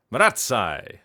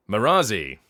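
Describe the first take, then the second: First: Maratsai with "ts" and an "eye" ending; alternative pronunciation. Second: Marazi as ma-RAH-zee; anglicised pronunciation. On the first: Voice actor comparing two readings, "ts" in Maratsai. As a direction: say Maratsai as ma-RAT-sigh. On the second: Voice actor comparing two readings, anglicised Marazi. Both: Shown as a demonstration. Showing two ways of saying word.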